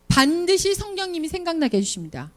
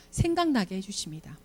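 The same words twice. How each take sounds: First: 반드시 hit high and firm, higher pitch; emphatic refrain. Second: Soft refrain. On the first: Preacher promising teachers the Spirit will guide, firm and higher. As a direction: proclaim it with conviction. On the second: Preacher repeating the promise to teachers, hushed and low. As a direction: lower and softer, 생각나게 gently falling. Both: Real, not acted.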